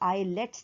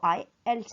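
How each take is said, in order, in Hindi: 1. इसे 'eye-lets' कहा जाता है, जिसमें एक स्वर बीच में डाला जाता है। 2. इसे 'eye-elts' कहा जाता है, जिसमें कोई स्वर बीच में नहीं डाला जाता। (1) "इसको आइलेट्स नहीं" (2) "इसको आई एल्स कहते हैं"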